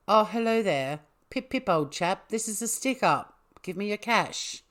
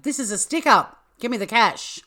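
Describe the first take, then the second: First: Lightly voiced posh English accent, higher pitched; a polite British robber, in a so-so English accent. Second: High, loud robber yell; acted stick-up shout. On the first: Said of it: "I could normally do quite a good English accent". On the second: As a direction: bellow the demand like a hammy robber. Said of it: "and shouted".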